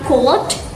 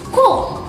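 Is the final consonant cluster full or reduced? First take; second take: full; reduced. First: The final consonant cluster is said in full. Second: The final consonant cluster is reduced. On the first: "like cold" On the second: "final consonants cluster reduction, ... becomes cold"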